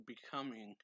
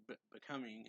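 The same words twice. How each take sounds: First: Said in the usual way. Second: Stumbling start on Be-, becoming; hesitant broken Be-, becoming; stammered becoming. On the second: Retold or imitated. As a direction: stutter the Be- before becoming. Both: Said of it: "or like".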